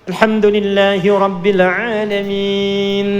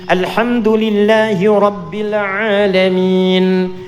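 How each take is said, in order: The two takes are said the same way.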